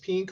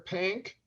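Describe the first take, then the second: First: The vowel is a short, plain 'i' sound. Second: The vowel is a broad, drawled 'a'-like sound.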